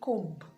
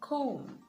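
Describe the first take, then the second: First: The b sound is pronounced. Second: The b sound is silent. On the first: The speaker calls it wrong. "and not comb" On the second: The speaker calls it right. "comb and not comb"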